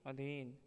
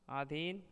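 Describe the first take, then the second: First: Said in the usual way. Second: अधीन with long "aa", rising; अधीन stretched at the start; wrong pronunciation. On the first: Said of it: "शुद्ध शब्द". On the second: Shown as a demonstration. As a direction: open अधीन as "aa-dheen". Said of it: "अशुद्ध शब्द".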